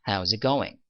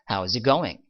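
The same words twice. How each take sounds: First: The words are shortened and run together. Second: The words are shortened and run together.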